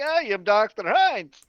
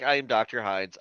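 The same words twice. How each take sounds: First: High, loud cartoon voice for the intro; silly Doctor Hines. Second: Said in the usual way. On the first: Doctor introduces himself, high hammed-up cartoon voice. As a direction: ham up the name like a cartoon. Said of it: "in all seriously". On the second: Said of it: "in all seriousness".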